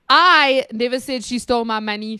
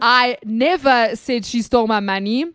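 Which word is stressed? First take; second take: I; never. First: The stress is on "I". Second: The stress is on "never".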